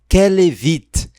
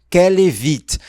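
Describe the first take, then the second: No difference in how they are said.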